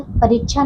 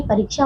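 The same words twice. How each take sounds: First: परीक्षा said as "pareecchhaa"; mispronounced word. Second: परीक्षा with a clear "ksh"; correct pronunciation. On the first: Teacher shows pupils the wrong word, mispronounced. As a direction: swap the "ksh" in परीक्षा for "cchh". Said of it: "नहीं". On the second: Teacher corrects the word for pupils, properly pronounced. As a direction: say परीक्षा as "pareek-shaa". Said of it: "परीक्षा होता है". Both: Shown as a demonstration.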